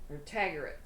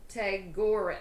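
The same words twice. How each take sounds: First: Tagore said TAG-er, stress on TAG; Tagore, first syllable stressed; name tried again. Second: Tagore said ta-GORE-uh, stress on GORE; unsure name. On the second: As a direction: Tagore with a long second syllable. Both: Shown as a demonstration. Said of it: "So if I butchered that".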